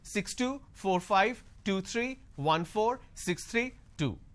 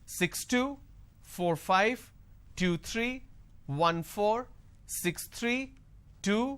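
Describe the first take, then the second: First: The voice drops very low on the final number. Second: The voice rises on the final number. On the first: Listeners miss the last number. "they drop it way too low and you can't hear" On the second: More numbers are still coming. "if I'm not dropping this tone, it will sound like as if it's going to continue"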